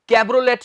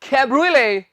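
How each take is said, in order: First: The word ends with a t sound. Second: The word ends without a t sound. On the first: The speaker calls it wrong. "इससे हमने कैब्रोलेट नहीं कहना" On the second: The speaker calls it right. "इसका उच्चारण है कैब्रुले।"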